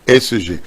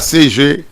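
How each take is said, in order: First: The first letter is said as 'ès'. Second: The first letter is said as 'cé'. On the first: The speaker calls it right. "on dit S G" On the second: The speaker calls it wrong. "pas C G"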